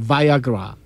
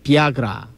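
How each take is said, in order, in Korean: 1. 첫 음절은 'bye'처럼 들려요. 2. 첫 음절은 'bee'처럼 들려요. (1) "미국 사람들이 이렇게 발음하는 것 같아요" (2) "우리는 비아그라로 하죠"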